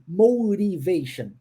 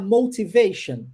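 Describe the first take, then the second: First: The t is a quick r-like flap. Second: The t is a clear, crisp t sound.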